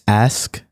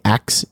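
First: The word ends with an sk sound. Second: The word ends with a ks sound. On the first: The speaker calls it right. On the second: The speaker calls it wrong.

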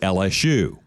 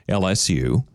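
First: The final letter is said like 'shoe'. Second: The final letter is said like 'you'. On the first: The speaker calls it right. "There's no almost about it. It is shoe" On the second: The speaker calls it wrong. "You don't say LSU"

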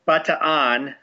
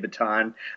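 First: Every syllable of the name is pronounced separately. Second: Two vowels merge, so fewer syllables are heard. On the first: This is the local pronunciation. "The correct Filipino pronunciation is Bataan. They pronounce every syllable" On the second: This is the Americanized pronunciation. "in America, 9 times out of 10, we'll say Bataan"

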